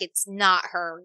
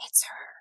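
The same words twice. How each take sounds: First: Drawn-out, firm denial. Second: Soft, voiceless whisper; whispered recognition. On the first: Smart brain arguing with itself, firm denial. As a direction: spell it out slowly, like the rational side. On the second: Instinct contradicting the smart brain, whispered recognition. Other instinct says the opposite. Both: Acted.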